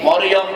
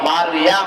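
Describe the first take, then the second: First: The name is said with Bengali-style vowels. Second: The name is said with Arabic-style vowels. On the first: The speaker calls it wrong. "মরিয়ম বলে আর টাকা যাবে না, তাহলে গুনাহ হবে" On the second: The speaker calls it right. "মিম র ইয়া মিম"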